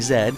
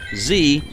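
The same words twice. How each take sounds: First: The letter is said the Canadian way. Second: The letter is said the speaker's usual way. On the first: "make it Canadian by saying Z" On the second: "I usually pronounce it as a Z"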